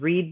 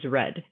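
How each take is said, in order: First: The vowel is long, sounding like 'reed'. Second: The vowel is short, sounding like 'red'. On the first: It is the present tense. "I didn't say no pronunciation change because read becomes read" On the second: It is the past tense. "I didn't say no pronunciation change because read becomes read"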